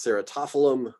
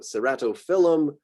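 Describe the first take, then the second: First: The stress is on the third-to-last syllable, to. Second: The stress is on the second-to-last syllable, phyl. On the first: "you could try out the alternative, which is the third to last" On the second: "kind of emphasizes that word change there between cerato and phylum"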